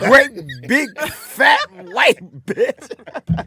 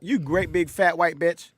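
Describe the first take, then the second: First: Each syllable is said separately, broken apart. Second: The words are said together in one flow.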